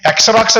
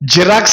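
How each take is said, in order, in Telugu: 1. ఈ పదం 'eks' శబ్దంతో మొదలవుతుంది. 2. ఈ పదం 'z' శబ్దంతో మొదలవుతుంది. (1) "అసలు ఇంగ్లీష్ రానివాడు ఎలా చదువుతాడు? దాన్ని ఎక్సరాక్స్ అని చదువుతాడు" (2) "కానీ దాన్ని ఎలా చదవాలి? జిరాక్స్ అని చదవాలి"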